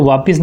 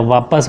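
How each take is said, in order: First: "वापिस" with an i in the second syllable; wrong pronunciation. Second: "वापस" with a short a after p; correct pronunciation. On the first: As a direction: say "वापिस" as vaa-pis. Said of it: "वापिस नहीं होता है". ("वापिस" में पि, गलत उच्चारण) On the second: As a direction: say "वापस" as vaa-pas. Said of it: "वापस होता है". ("वापस" में प, सही उच्चारण) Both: Shown as a demonstration.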